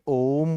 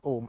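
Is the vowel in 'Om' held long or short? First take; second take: long; short. First: The vowel is drawn out for a long time. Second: The vowel is said short and quick. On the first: "लेकिन ये ओम बोलते हैं ना" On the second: "ऐसे तो ओम ऐसे भी होता है ना"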